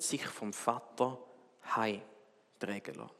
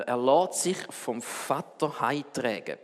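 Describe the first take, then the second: First: „Vater“ betont, langsam und leise gesprochen; „Vater“ hervorheben, dann leise ausklingen; Betonung auf Vater. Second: „lässt“ betont, der Satz langsam und andächtig gesprochen; „lässt“ hervorheben, den Rest ruhig ausklingen lassen; Betonung auf lässt. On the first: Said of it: "Da hat jemand gesagt". (das Zitat über Buße langsam und leise, Betonung auf „Vater“) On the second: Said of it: "Ich finde den Satz so schön". (den Lieblingssatz langsam vorlesen, Betonung auf „lässt“) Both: Shown as a demonstration.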